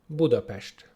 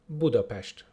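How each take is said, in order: The two takes are said the same way.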